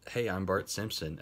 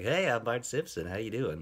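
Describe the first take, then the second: First: Said in the usual way. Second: A mild mock Bart that sounds more like Yakko; bad Bart Simpson impression. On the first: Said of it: "She goes up and she's like". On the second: Imitating Nancy Cartwright greeting strangers as Bart. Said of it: "That's a really bad impression".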